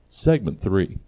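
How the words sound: It sounds confident and self-assured.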